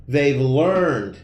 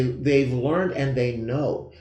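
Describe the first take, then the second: First: Said in the usual way. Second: Slow, leaning on "they" each time; stress on they. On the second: Shown as a demonstration. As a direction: hit "they" in "they've" and "and they know", drawn out. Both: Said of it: "I wanna emphasize the word they".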